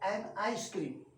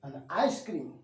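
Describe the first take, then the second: First: The word 'an' is fully pronounced and stressed. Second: The word 'an' is reduced to a weak 'un'. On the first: "in case of stress और emphasis एन के रूप में किया जाता है" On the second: "इस तरह अन के रूप में होता है"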